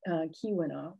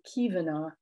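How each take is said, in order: First: The middle consonant is pronounced as a W. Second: The middle consonant is pronounced as a V.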